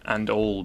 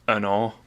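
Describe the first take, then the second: First: The final L is a clear L. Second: The final L sounds like a W. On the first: "and all becomes" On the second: "becomes an all"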